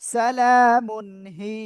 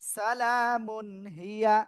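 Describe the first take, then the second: First: The last word ends on a long 'hee' sound. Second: The last word ends with a full 'ya' syllable. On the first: The reader stops at this word. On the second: The reading continues without stopping.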